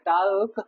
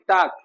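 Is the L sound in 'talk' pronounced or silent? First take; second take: pronounced; silent. First: The word is said with an L sound. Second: The word is said without an L sound. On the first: The speaker calls it wrong. "अरे टाल नहीं" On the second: The speaker calls it right. "टाल नहीं, टाक"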